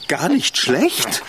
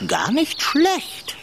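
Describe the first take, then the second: First: Slow, disbelieving echo of gar nicht schlecht; drawn-out mocking repeat. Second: Smug approval. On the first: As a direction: repeat his words back, slowly and incredulous. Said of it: "dir fällt nichts weiter zu sagen ein". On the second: Acted.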